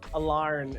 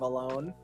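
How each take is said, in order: First: The word is said in an Australian accent. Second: The word is said in a plain accent.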